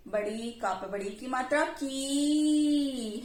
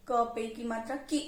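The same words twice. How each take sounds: First: Final की held very long; long, drawn-out ee in की; long vowel. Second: Final की cut short; short ee sound in the last की; short vowel. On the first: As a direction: stretch the last की right out. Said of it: "तो ऐसे pronounce करेंगे". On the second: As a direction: end on a brief, quick की. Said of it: "sound कैसे pronounce करेंगे?". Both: Shown as a demonstration.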